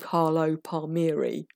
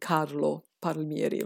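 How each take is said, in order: First: The name is said with an English accent. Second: The name is said with an Italian accent. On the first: This is how other people would say it. "Maybe people would call him" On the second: This is how the speaker personally says it. "I call him"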